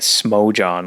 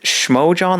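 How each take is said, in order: First: The name begins with an s sound. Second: The name begins with a sh sound. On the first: "like just S M" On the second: "like S H M"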